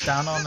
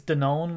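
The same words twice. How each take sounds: First: Danone said the British way, stress on the first syllable, DAN-on; British pronunciation. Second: Danone said the American way, stress on the last syllable, rhyming with "own"; American pronunciation. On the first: Host gives the brand name as it is said over here, British pronunciation. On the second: Host contrasts the American brand name with the British one, American pronunciation. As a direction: say Danone as da-NONE. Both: Shown as a demonstration. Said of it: "which it is over here".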